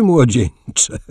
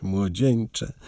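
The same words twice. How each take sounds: First: Louder młodzieńcze, falling at the end; młodzieńcze said louder and amused, falling at the end; louder young man. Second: Softer, quieter młodzieńcze; młodzieńcze said much softer, a quiet rebuke; softer young man. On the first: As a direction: call out młodzieńcze with a falling close. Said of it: "Voltaire bawił się szczerze". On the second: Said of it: "Ślepy jesteś". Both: A narrator's reading.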